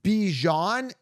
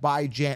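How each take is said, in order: First: It does not sound like 'bye' plus 'jan'. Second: It sounds like 'bye' plus 'jan' rhyming with 'Rand'. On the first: The speaker calls it wrong. "Anyone pronouncing it Bijan is wrong" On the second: The speaker calls it right. "Bi as in bi-weekly, B I. Uh, Jan as in Rand"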